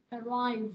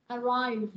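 The two takes are said the same way.

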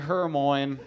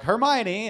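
First: The final E is silent. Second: The final E is pronounced. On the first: This is how a reader guessed it from the book. "Hermione's my favorite character" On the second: This is how the movie said it. "they're like"

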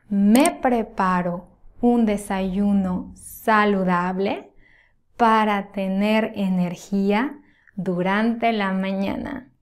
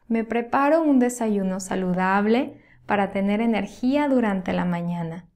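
First: It is spoken at a slower, careful pace. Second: It is spoken at a faster, natural pace.

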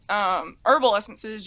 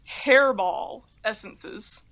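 First: The first word is said the usual way, 'herbal'. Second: The first word has a sounded H and 'air' vowel. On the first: "instead of pronouncing it herbal essences" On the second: "you could potentially pronounce it hairball essences"

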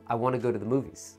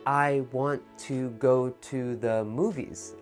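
First: The words are said linked together smoothly. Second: The words are said separately, one at a time. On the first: The speaker calls it right. "I say" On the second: The speaker calls it wrong. "So when I don't say"

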